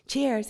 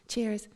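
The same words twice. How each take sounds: First: "Cheers" stretched almost into two syllables with a Canadian twang; a husband's friendly Canadian "Cheers", brighter and a bit louder. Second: Put-on English accent. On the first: Retold or imitated. Toasting a fellow passenger on the plane, light Canadian twang. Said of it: "the twang of his accent making it almost two syllables". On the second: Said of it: "you reply with your almost two syllables".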